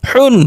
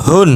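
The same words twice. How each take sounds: First: Tight, pressed হ at the start of হুন; pressed throat H. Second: হুন with a light, unpressed হ. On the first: Teacher drilling two H sounds, throat-pressed হুন. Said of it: "চেপে উচ্চারণ করতে হবে গলার মধ্যে". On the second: Teacher drilling two H sounds, light হুন. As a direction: let হুন start on an easy open breath. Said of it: "আর একটা হালকা নরমাল উচ্চারণ". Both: Shown as a demonstration.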